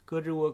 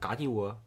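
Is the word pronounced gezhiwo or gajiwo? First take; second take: gezhiwo; gajiwo. First: The word is pronounced gezhiwo, with more effort. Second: The word is pronounced gajiwo, more smoothly. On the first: "你要是说胳肢窝，好像是就是得更加用力的去说" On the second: "你要是给它变成嘎叽窝"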